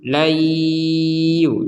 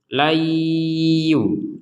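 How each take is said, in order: No difference in how they are said.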